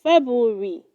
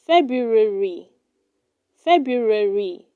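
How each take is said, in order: First: February without its first r, "Feb-oo-ree"; wrong pronunciation. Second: February with both r's, "Feb-roo-e-ree"; correct pronunciation. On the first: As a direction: drop the r after the b in February. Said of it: "do not say". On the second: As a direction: sound the r after the b in February. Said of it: "It is pronounced". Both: Shown as a demonstration.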